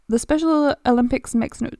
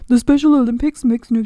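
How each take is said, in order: First: It is read in the speaker's normal voice. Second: It is said in a put-on mocking voice.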